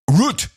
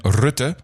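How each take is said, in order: First: The name is said as the English word root. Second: The name is said with its Dutch pronunciation. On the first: The speaker calls it wrong. "Dude, call one Dutch person" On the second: The speaker calls it right. "that is the way you pronounce it"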